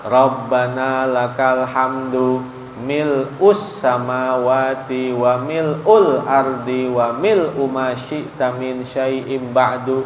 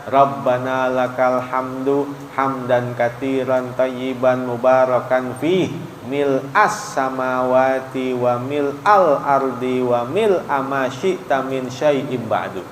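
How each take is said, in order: First: Level recitation, u in "mil'us" and "mil'ul"; reading with u vowel. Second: Level recitation, a in "mil'as" and "mil'al"; reading with a vowel. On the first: Ustadz showing one allowed reading, "mil'us" with u. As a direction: recite "mil'us samawati" with an u after mil. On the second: Ustadz showing the other allowed reading, "mil'as" with a. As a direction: recite "mil'as samawati" with an a after mil. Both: Shown as a demonstration. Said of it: "Boleh juga dibaca".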